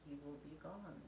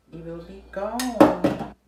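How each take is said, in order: First: Said in the usual way. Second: Loud, slow, theatrical wail; mock dramatic lament. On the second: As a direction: ham up the loss, drawn out.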